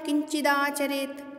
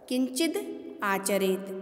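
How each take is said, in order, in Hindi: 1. दोनों शब्द एक साथ जुड़कर एक शब्द की तरह बोले जाते हैं। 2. दोनों शब्द अलग-अलग बोले जाते हैं। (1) "एक साथ" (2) "इस तरह से हम इसका उच्चारण कर सकते हैं"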